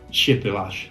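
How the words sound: The word is said with an attempted Polish pronunciation. "in Polish"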